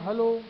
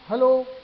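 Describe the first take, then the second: First: The word is said softly and gently. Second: The word is said loudly and forcefully. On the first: "तो मैंने slow बोला" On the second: "तो मैंने तेज बोला"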